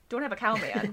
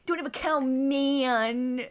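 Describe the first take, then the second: First: It is said in a plain, normal voice. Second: It is said in Bart's whiny, nasal voice.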